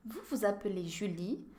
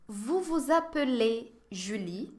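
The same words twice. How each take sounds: First: Said in the usual way. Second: "Vous vous appelez Julie?" slow, rising at the end; slow model question. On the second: Shown as a demonstration. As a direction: ask slowly so learners catch it. (pergunta devagar, subindo no fim) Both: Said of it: "Je vais vous poser quelques questions".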